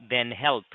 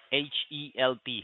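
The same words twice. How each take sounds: First: Said in the usual way. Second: Letters spelled out one by one; dictating. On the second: Real, not acted. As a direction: spell out each letter separately. Spelling a web address aloud.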